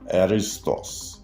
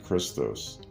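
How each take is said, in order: First: The word begins with a soft breathy sound. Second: The word begins with a hard k sound. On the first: The speaker calls it right. "it sounds like this" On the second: The speaker calls it wrong. "The true voicing of Christos isn't Christos"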